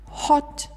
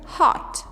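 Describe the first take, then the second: First: The vowel is very rounded, British style. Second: The vowel is less rounded, American style.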